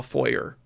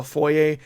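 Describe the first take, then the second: First: "foyer" said foy-er with a hard R; "foyer" ending on a pronounced R; "foyer" with the R sounded out; American foyer. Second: "foyer" said foy-ay, French style, no R; Canadian foyer. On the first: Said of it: "like pronouncing the R". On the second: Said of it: "what I would call foyer". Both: Shown as a demonstration.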